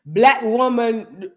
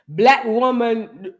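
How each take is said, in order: First: It is said in a put-on African accent. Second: The same.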